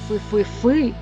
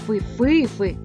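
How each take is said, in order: First: The stress is on the last syllable. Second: The stress is on the middle syllable. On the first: "Роблячи наголос на останньому складі" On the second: "роблячи наголос на середньому складі"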